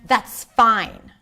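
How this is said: It sounds clearly displeased and unhappy. The speaker is upset about the situation. "I was definitely not happy"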